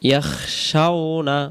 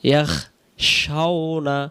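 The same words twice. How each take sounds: First: The consonant before sh is a raspy kh. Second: The same.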